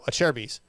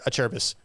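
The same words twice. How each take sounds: First: The first syllable sounds like the word 'chair'. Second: The first syllable does not sound like 'chair'. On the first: The speaker calls it right. "I say no, a Cherbis" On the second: The speaker calls it wrong. "He'd say a Cherbis"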